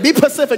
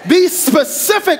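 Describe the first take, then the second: First: The first s sound of the word is dropped. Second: The first s sound of the word is kept. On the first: The speaker calls it wrong. "They be like, be pacific. No, that ain't how you say it" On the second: The speaker calls it right. "make sure you're saying it right"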